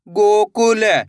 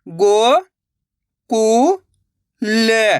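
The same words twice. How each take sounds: First: Said in the usual way. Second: गोकुल, drawn out slowly, syllables apart. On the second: Shown as a demonstration. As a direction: sound out गोकुल, piece by piece. (अक्षर-अक्षर धीरे-धीरे) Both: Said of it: "तो मिलके बन जाएगा".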